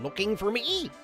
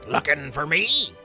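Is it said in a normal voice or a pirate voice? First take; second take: normal; pirate. First: It is said in a normal voice. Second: It is said in a gruff pirate voice.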